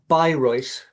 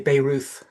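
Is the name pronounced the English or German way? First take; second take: German; English. First: The name is pronounced the German way. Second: The name is pronounced the English way. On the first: "is the German pronunciation" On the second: "if you're English, you might say"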